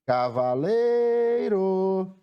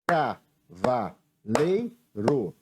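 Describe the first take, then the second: First: "Cavaleiro" called in one drawn-out chant, LEI held long; "Cavaleiro" slow and higher, as if hailing someone; calling out the word. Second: "Cavaleiro" broken into four slow beats, Ca-va-lei-ro; "Cavaleiro" slowly, a gap after every syllable. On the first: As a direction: stretch the "lei" of "Cavaleiro" on a high held note. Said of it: "Chamando a palavra". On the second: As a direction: say "Cavaleiro" as if clapping each syllable. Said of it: "é batendo palmas". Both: Shown as a demonstration.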